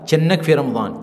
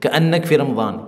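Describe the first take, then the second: First: The first word begins with a ch sound. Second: The first word begins with a k sound. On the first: This is the everyday spoken form. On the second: This is the formal standard form.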